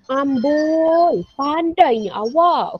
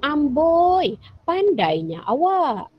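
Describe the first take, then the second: First: Kagum. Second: A high, impressed "Amboi" drawn out slowly; kagum. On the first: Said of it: "hairan atau kagum". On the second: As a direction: praise a friend who solved it. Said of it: "kita pun kagum dengan dia". (kagum dengan rakan, perlahan) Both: Shown as a demonstration.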